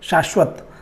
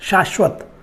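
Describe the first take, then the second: First: The first sibilant is palatal, like sh. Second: The same.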